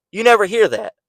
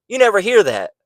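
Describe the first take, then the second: No difference in how they are said.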